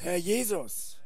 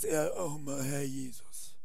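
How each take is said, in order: First: It is said with lively enthusiasm. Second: It is said flatly, without enthusiasm. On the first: The speaker calls it right. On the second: The speaker calls it wrong.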